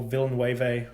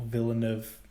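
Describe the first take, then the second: First: "Villeneuve" stretched into four syllables, ending way-vay; deliberate mispronunciation. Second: "Villeneuve" in three syllables, short final -nuv; alternative pronunciation guess. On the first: Host unsure of the director's name, mangled pronunciation. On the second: Host trying the director's name another way, tentative pronunciation. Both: Shown as a demonstration. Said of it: "however you pronounce it".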